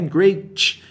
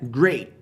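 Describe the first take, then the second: First: The final T is clearly pronounced. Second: The final T is silent. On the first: The speaker calls it wrong. "não é great" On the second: The speaker calls it right. "é great. T mudo"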